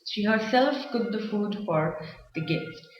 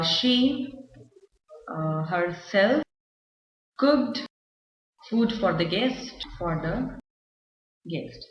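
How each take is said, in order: First: Said in the usual way. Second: Slow and halting, long gaps between words; drawn-out words with pauses and fillers; word-by-word dictation. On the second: Shown as a demonstration. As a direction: dictate it bit by bit as if writing it out. Writing the example out.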